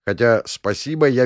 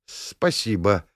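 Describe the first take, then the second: First: Said in the usual way. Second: Slow, grudging thanks; reluctant. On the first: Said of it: "narrator's own remark". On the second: A narrator's reading. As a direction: squeeze it out unwillingly. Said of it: "явно нехотя выдавила она".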